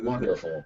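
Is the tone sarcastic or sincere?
sarcastic. It is said in a sarcastic, mocking tone. The speaker finds the idea disgusting. "with obvious sarcasm"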